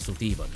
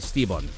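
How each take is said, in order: First: The vowel after the first s is pronounced. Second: The vowel after the first s is dropped. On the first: The speaker calls it wrong. "instead of" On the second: The speaker calls it right. "so it'd be Stibon, basically"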